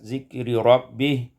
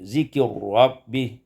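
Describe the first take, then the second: First: The two r sounds are kept apart. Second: The two r sounds merge into one.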